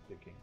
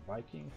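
First: The name is pronounced the German way. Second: The name is pronounced the English way.

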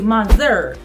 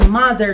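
First: The stress is on the second syllable. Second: The stress is on the first syllable. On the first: The speaker calls it wrong. "atunci o să suni greșit" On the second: The speaker calls it right. "noi accentăm primul cuvânt"

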